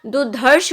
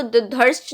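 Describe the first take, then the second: First: दुधर्ष said as dudharsh, ending in sh; दुधर्ष with a clear sh at the end; correct form. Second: दुधर्ष said as dudhars, ending in s; दुधर्ष with a dental s at the end; wrong form. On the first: Teacher giving the correct दुधर्ष, ending in sh. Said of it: "होता है". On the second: Teacher showing the wrong दुधर्ष, ending in s. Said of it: "नहीं होता". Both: Shown as a demonstration.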